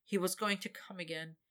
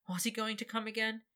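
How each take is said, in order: First: Said in the usual way. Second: "Was he going" rising, higher as a doubtful question; questioning tune. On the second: A narrator's reading. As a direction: let it lift into a question. Narrator turns statement into question.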